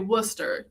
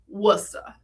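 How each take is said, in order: First: The r at the end is pronounced. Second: The r at the end is dropped. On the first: The speaker is not from the area. The speaker calls it wrong. "you don't say Worcester" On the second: The speaker is a local. The speaker calls it right. "we don't like ours in this part of the world"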